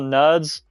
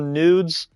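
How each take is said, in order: First: The vowel sounds like the one in 'nod'. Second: The vowel sounds like the one in 'food'. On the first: The speaker calls it right. "I've heard some people call it the Nods" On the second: The speaker calls it wrong. "I've heard some people call it the nudes"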